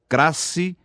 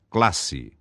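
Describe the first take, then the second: First: An R sound replaces the L after the C. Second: An L sound follows the C. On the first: The speaker calls it wrong. "Lambdacismo é a pronúncia defeituosa da letra L" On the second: The speaker calls it right. "forma correta"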